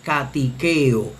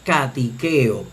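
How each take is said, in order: The two takes are said the same way.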